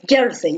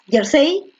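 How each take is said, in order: First: The stress is on the first syllable. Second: The stress is on the last syllable. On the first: The speaker calls it right. "levantando la yer" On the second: The speaker calls it wrong. "ahí estaría en la última"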